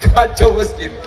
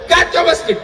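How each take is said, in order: First: Said in the usual way. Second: Preacher's raised second take of kacau masjid; emphatic shout. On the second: Real, not acted. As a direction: push the repeat up into a cry.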